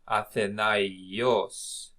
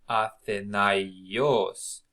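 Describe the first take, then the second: No difference in how they are said.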